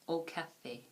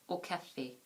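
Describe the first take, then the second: The two takes are said the same way.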